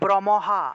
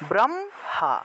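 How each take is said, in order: First: The m is said as its own full syllable. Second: The m is joined to the first syllable. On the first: "মটাকেও পূর্ণ উচ্চারণ করতাম" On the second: "মটাকে আগের অক্ষরের সাথে একসাথে উচ্চারণ করেছি"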